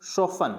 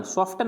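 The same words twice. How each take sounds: First: सोफन with silent T; correct pronunciation सोफन. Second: सॉफ्टन with the T sounded; mispronounced सॉफ्टन. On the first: Teacher modelling for learners, सोफन without T. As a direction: say सोफन as so-fan. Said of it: "इसको क्या पढ़ेंगे". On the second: Teacher showing what not to read, सॉफ्टन with audible T. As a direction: say सॉफ्टन as sof-tan. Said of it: "सॉफ्टन नहीं पढ़ेंगे". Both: Shown as a demonstration.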